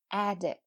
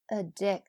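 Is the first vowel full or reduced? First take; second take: full; reduced. First: The first vowel is a full open vowel. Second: The first vowel is a reduced schwa. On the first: It is the noun. "那前面这个a 这个字母在名词的时候发的是梅花i 是吧" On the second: It is the verb. "在动词的时候呢则变成了一个schwa 音，就是addict"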